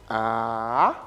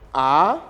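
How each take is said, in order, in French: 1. La hauteur descend puis remonte. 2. La hauteur monte du bas vers le haut. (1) "ça descend et ça remonte" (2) "c'est un ton montant, c'est-à-dire ça quitte le bas vers le haut"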